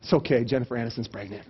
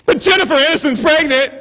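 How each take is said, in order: First: Low, soft reassurance; mock consoling. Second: High, loud gushing announcement; mock excited. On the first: Friend consoling another with gossip, mock tender. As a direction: pretend to comfort gently. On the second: Wife cheers husband with gossip, mock excited. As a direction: chirp it as thrilling news, hammed-up.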